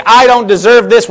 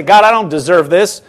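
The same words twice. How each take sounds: First: Louder, aggrieved "I don't deserve this," with the stress on "I"; a self-pitying "I don't deserve this,"; self-pitying complaint. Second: A grateful "God, I don't deserve this." in a level, calm voice; "God, I don't deserve this." as sincere thanks, not a complaint; humble sincere prayer. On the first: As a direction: say "I don't deserve this," as a hurt protest, leaning on "I". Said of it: "we're looking at it wrong". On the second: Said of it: "turn it right around and say". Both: Shown as a demonstration.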